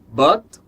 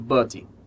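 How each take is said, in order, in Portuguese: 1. Termina limpamente na consoante final. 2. Termina com um som de vogal acrescentado.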